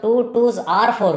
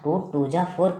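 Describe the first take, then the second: First: The middle words are said as separate clear words. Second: The middle words are blurred together into one sound. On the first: The speaker calls it right. "वो तो टू टूज आर four हुआ" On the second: The speaker calls it wrong. "टूजा टूजा क्या है?"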